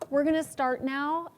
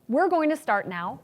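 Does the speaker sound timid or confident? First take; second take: timid; confident. First: It sounds weak and hesitant. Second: It sounds bold and commanding.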